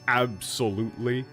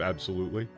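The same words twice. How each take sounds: First: The word is said with strong emphasis. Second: The word is said plainly, without emphasis. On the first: It means absolutely, with strong emphasis. "That's the equivalent of saying, like, absolutely" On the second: It simply means absolutely. "instead of absolutely"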